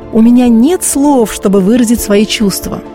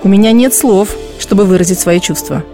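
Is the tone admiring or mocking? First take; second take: admiring; mocking. First: It is said with warm, delighted admiration. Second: It is said with a sneering, mocking tone. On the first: The speaker is genuinely overwhelmed with delight. "я могу сказать с восхищением" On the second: The speaker is ridiculing the situation. "Или с насмешкой"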